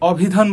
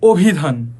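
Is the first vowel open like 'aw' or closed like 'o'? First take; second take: aw; o. First: The first vowel is open, like 'aw'. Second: The first vowel is closed, like 'o'. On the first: The speaker calls it wrong. "আমরা কিন্তু কখনোই অভিধান বলি না" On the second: The speaker calls it right. "বলি কি? অভিধান।"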